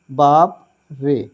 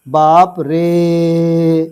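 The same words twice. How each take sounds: First: Said in the usual way. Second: रे held very long and slow; drawn-out रे. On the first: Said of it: "तो इसको कैसे पढ़ेंगे". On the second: Shown as a demonstration. Teacher stretching रे slowly in बाप रे. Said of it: "जब हम रे पढ़ते हैं ना, तो काफ़ी देर तक पढ़ते हैं".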